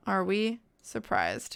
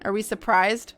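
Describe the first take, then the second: First: "Are we surprised?" slow and softer, split before "surprised"; deliberate repeat. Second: Said in the usual way. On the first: Real, not acted. Streamer repeating the question to chat, deliberately. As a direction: repeat it slower and lower, pausing after "we".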